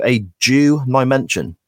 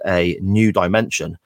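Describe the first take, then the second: First: "Jew dimension" with the first sounds of the two words swapped; jumbled letters. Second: Said in the usual way. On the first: Retold or imitated. Retelling the wrestler's botched promo, "Jew dimension" with swapped first sounds. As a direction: say "Jew dimension" as a spoonerism of "new dimension". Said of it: "gets the letters in the words jumbled up". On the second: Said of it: "one trying to say".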